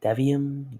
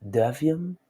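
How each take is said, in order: First: "Devium" tried one way, pitched higher; unsure attempt at saying "Devium"; alternative pronunciation. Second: "Devium" drawn out slowly with a rising end; slow, questioning second go at "Devium"; alternative pronunciation. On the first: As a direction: try out "Devium" as a possible reading. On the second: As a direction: try "Devium" slowly, as if asking. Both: Shown as a demonstration. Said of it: "I don't know if it's Devium".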